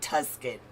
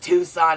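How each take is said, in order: First: The word is said with a k sound. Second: The word is said with no k sound. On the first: The speaker calls it wrong. "not Tuscan" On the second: The speaker calls it right. "But it's Tucson"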